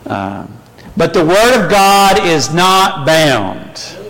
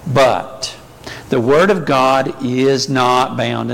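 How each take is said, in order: First: It is read forcefully with strong emphasis. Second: It is read plainly without strong emphasis.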